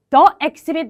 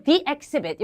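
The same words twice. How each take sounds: First: The said "thuh" before exhibit; learner's "thuh" in front of exhibit; wrong THE vowel. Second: The said "thee" before exhibit. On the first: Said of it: "이거 the exhibit 말고". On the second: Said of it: "이렇게 읽어주시면 좋겠고". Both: Shown as a demonstration.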